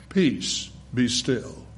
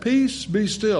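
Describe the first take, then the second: First: Softer and lower, utterly calm; very calmly. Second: Said in the usual way. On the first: Retold or imitated. Jesus speaking to the storm on Galilee, quiet and calm. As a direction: hush the storm without raising the voice. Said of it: "I think he said very calmly". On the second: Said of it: "I don't think he shouted it".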